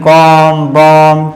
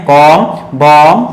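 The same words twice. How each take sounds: Both takes have the same delivery.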